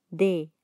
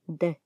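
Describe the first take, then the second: First: Said in the usual way. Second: D as its bare consonant sound, not the letter name; D cut to a brief consonant. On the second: Shown as a demonstration. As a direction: say just the short voiced "d" of D. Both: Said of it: "la pronunciación".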